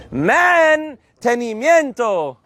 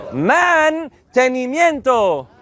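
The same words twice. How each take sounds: First: Mantenimiento said slowly, every syllable clear; slow model word. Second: Mantenimiento drawn out slowly; slow model word. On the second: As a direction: take Mantenimiento syllable by syllable. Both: Shown as a demonstration. Teacher modeling for the class, slow and clear. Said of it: "teacher slow model".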